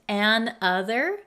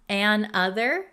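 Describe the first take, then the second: Both takes have the same delivery.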